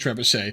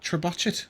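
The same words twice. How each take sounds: First: The word is pronounced in the usual standard way. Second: The word is pronounced in a deliberately altered way. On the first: The speaker knows the usual pronunciation. The speaker calls it right. "I I'm aware it's a trebuchet" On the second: It imitates how someone else says the word. The speaker calls it wrong. "that's purposely mispronouncing it"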